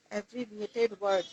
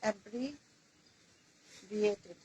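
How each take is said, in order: First: Said in the usual way. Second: abbreviated drawn out syllable by syllable; slow dictation. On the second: Shown as a demonstration. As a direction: spell out abbreviated slowly for writing. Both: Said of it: "আমি এখানে পাঁচ number লিখছি".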